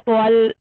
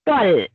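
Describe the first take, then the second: First: The L sound is made heavy and thick. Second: The L sound is kept light and thin. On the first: The speaker calls it wrong. "ऐसा लाम को भारी नहीं करना है आपको" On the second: The speaker calls it right. "आपको सिर्फ तो को भारी करना है"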